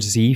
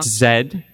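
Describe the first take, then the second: First: The letter is said the American way, zee. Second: The letter is said the British way, zed.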